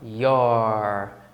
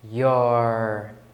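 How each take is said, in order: Both takes have the same delivery.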